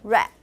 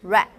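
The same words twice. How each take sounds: The two takes are said the same way.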